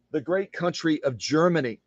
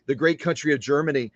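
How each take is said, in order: First: Grand announcement; proud stress. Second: Said in the usual way. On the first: Shown as a demonstration. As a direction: proclaim the great country.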